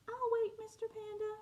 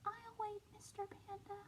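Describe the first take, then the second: First: Little penguin. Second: A much softer, small little penguin voice; very quiet. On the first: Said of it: "said the little penguin". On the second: Little penguin patiently telling Mister Panda, quietly. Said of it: "said it very quiet like this". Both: Acted.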